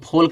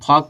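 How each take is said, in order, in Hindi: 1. इस शब्द में L की ध्वनि बोली जाती है। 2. इस शब्द में L की ध्वनि साइलेंट है। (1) "इसको फोल्क नहीं पढ़ा जाता" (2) "इसको फॉक पढ़ा जाता है"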